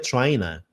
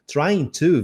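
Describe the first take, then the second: First: The words run together with a reduced 'to'. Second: Both words are said fully and clearly.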